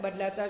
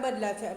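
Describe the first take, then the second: The two takes are said the same way.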